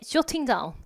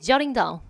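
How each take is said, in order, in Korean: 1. 영국 억양이에요, 둥근 'o' 모음과 또렷한 t. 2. 미국 억양이에요, 열린 'ah' 모음과 부드러운 t. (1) "영국 발음이면 저가 아니라 오 발음 조 해주셔야 되겠고 T 발음까지 살려줄 거예요" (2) "미국 발음 다 같이"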